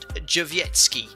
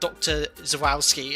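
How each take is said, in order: First: The name starts with a 'j' sound. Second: The name starts with a 'z' sound. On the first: The speaker calls it right. "I think it's pronounced Jowiecki" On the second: The speaker calls it wrong. "not Doctor Zawalski, as I've been calling it for a long time"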